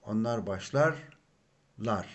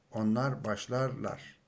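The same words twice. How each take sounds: First: Onlar başlarlar said slowly, each syllable clear; slow model phrase. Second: Said in the usual way. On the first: Shown as a demonstration. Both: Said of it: "the personal suffix for third person plural".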